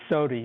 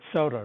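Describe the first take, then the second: First: It is said in a Missouri regional way. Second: It is said in the general American way. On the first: This is how people in Missouri say it. "They say sody" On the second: This is how most of the country says it. "other parts of the country call it soda"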